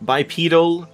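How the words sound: It is said with the British pronunciation. "bipedal in the U K"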